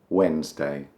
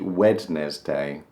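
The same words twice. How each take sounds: First: The middle d sound is silent. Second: The middle d sound is pronounced. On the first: The speaker calls it right. "for some reason we say Wednesday" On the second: The speaker calls it wrong. "It looks like it should be Wednesday, but uh, no, no, stop it"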